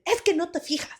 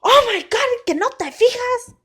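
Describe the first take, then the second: First: High-pitched scolding without shouting; imitated stern dad, volume held back; stern, not yelling. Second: High, loud exasperated dad; loud mock telling-off; exasperated scolding outburst. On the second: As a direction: imitate a dad's outburst, pitched way up. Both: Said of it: "But not yelling at me".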